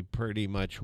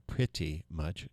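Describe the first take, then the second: First: "pretty" said loosely as "purty"; casual "purty". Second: "pretty" slow and soft, both syllables distinct; careful pronunciation. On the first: Radio host chatting about swap shop rules, "pretty" as "purty". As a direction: slur "pretty" into a folksy "purty". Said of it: "not one of the words". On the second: Radio host correcting his own "purty", careful slow "pretty". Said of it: "how to pronounce all sorts". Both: Real, not acted.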